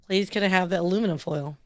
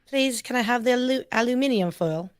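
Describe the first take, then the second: First: It is said in an American accent. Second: It is said in a British accent. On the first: The speaker calls it wrong. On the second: The speaker calls it right.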